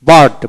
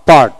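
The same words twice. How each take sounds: The two takes are said the same way.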